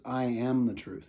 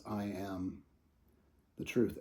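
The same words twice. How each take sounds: First: "am" leaned on with a falling tune; stress on am. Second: Quiet declaration. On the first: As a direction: land on the word "am" and let it fall. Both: Shown as a demonstration. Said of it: "And notice this".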